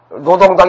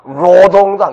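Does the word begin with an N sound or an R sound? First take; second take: N sound; R sound. First: The word begins with an N sound. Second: The word begins with a harder R sound. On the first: This is the South Korean way of saying it. "우리는 이제 북한의 노동당을 노동당 이렇게 표현하는데" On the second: This is the North Korean way of saying it. "걔네들은 노동당 이렇게 하잖아요"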